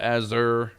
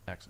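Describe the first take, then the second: First: The name sounds like the word azure. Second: The name sounds like axe followed by er. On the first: The speaker calls it wrong. "People people call it Azure" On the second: The speaker calls it right. "It's Axer. That's how you say it"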